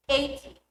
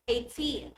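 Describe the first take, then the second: First: EIGHty, stressed on EIGH; stress on first syllable. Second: Put-on eighTEEN, with a long TEEN; last-syllable stress. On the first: Teacher comparing numbers, EIGHty stressed at the front. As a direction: hit the front of eighty, light -ty. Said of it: "Let's compare". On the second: Teacher comparing numbers, eighTEEN stressed at the end. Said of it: "to stress the last syllable". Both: Shown as a demonstration.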